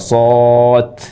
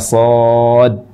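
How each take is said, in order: First: The word ends with a t sound. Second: The word ends in d with no bounce. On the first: "kita mengubah huruf terakhir dari shad yang harusnya huruf dal. Ini terubah menjadi ta" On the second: "ada sifat yang disebut dengan qalqalah yang tidak terucap"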